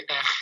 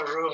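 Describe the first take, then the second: First: R trilled on the tongue; rolled R. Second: R as the French throat sound. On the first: Teacher showing the right sound, rolled R. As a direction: say R rolled, Spanish style. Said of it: "on dit R". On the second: Teacher showing what not to say, French R. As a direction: say R the French way, untrilled. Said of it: "on dit pas R". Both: Shown as a demonstration.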